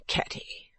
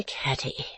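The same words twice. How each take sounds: First: Whisper. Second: Weary whisper. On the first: Mother murmurs daughter's name. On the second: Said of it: "quite weary of such little matters". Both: Acted.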